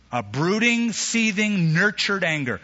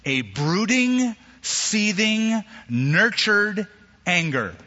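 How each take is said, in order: First: Brooding and seething pitched higher, nurtured anger falling; repeated stressed definition. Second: Brooding, seething, nurtured each drawn out slow and higher; slow stressed definition. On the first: Preacher repeating the definition, stressed words. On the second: Preacher to congregation, slow stressed definition. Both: Shown as a demonstration. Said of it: "this is what the word means".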